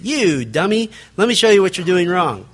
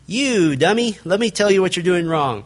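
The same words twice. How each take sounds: First: Mock rude rebuke. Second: Condescending scolding, lightly played; mock rude rebuke. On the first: Preacher showing the hidden meaning, condescending. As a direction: reveal the insult underneath. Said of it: "When they're really saying". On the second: Preacher mocking a blunt rebuker, condescending. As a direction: talk down to them like a fool. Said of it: "rather than".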